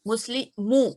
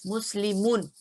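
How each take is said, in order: First: मुस्लिमू ends on an open ू with no नून; light form without nun. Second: मुस्लिमुन said with the final नून sounded fully; heavy form with nun. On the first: Teacher contrasts heavy and light forms, नून dropped. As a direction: drop the नून and finish मुस्लिमू on a long ू. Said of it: "नून हटाने का मतलब है". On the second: Teacher contrasts heavy and light forms, full नून ending. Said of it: "तो ये क्या बन गया". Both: Shown as a demonstration.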